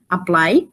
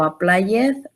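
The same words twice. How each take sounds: First: The -ed ending blends into the word. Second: The -ed ending is an extra syllable. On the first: The speaker calls it right. "aquí tengo que decir" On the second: The speaker calls it wrong. "no voy a decir"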